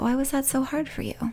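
The voice sounds warm and gently curious. The listener genuinely wants to understand. The speaker calls it right. "oh, tell me about that"

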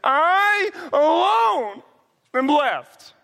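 It is said in a sulky, pouting voice.

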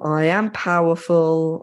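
It is said in a flat, depressed voice.

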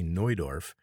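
The name has a German-style pronunciation. "but in German they say"

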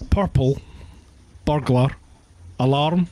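Slow Scottish accent with rolled R's.

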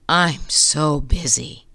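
It sounds weary and complaining.

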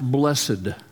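It is said the Southern US way.

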